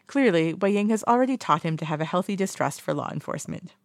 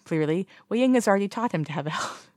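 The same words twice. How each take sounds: First: Laugh, then read it again. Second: Said in the usual way. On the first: Real, not acted. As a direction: restart through a small laugh.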